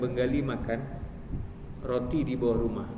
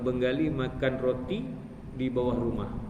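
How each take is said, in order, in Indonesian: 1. Jeda memotong frasa di titik yang janggal. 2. Jeda jatuh di batas frasa yang alami. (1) "Kalau diwakafkan" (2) "wakaf yang betul"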